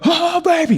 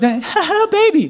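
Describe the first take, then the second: First: The phrase is yelled strongly from the gut. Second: The phrase is said weakly, without force. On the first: The speaker calls it right. "with your gut, you go" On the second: The speaker calls it wrong. "And don't"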